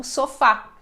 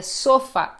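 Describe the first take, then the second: First: "sofá" stressed as so-FÁ; stress on last syllable. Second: "sofá" mis-stressed as SO-fa; stress on first syllable. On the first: Teacher correcting the unaccented reading, "sofá" stressed on FÁ. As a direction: put the weight on the final FÁ of "sofá". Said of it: "e não sofá". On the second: Teacher showing how it would sound unaccented, "sofá" stressed on SO. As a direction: punch SO in "sofá", weak fa. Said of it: "Seria sofá e não sofá". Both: Shown as a demonstration.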